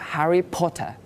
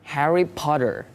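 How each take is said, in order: First: It is said in a British accent. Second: It is said in an American accent. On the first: "Kalau Britishnya atau Inggrisnya itu" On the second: "Itu Amerika"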